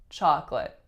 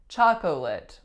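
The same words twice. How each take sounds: First: The middle syllable is dropped, leaving fewer syllables. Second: Every syllable is pronounced, including the middle one. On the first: "we totally get rid of that middle syllable" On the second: "it really looks like chocolate"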